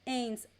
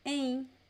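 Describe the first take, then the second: Both takes have the same delivery.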